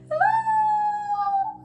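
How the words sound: It is said in a high voice.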